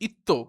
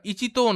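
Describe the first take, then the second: First: The middle has a doubled 't' sound. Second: The middle has a full 'chi' syllable. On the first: The speaker calls it right. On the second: The speaker calls it wrong.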